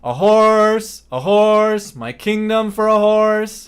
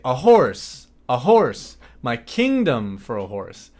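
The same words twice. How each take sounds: First: The loudness stays level to the end. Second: The loudness fades away toward the end.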